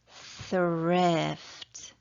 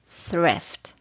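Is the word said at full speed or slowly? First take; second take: slowly; full speed. First: The word is said slowly and carefully. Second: The word is said at normal full speed. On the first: "Let's do that one again. It's hard" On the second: "And now at full speed"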